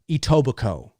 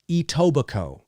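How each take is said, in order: First: The final K sound is silent. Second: The same.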